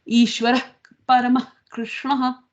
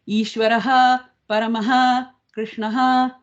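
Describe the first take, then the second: First: The inner word endings carry only a breathy puff. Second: Every word ending is a fully voiced 'ha'. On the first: The speaker calls it right. "When it's inside, it's pronounced with more of a puff of air" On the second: The speaker calls it wrong. "it is not Ishvaraha Paramaha Krishnaha. You've lost your meter completely"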